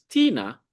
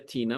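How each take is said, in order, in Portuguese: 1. Tina é dita com acento. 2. Tina é dita sem nenhum acento. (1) "Então isso marca a interrogação" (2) "não seria"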